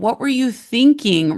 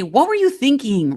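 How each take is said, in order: First: It sounds sincerely curious and kind. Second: It sounds exasperated and accusing.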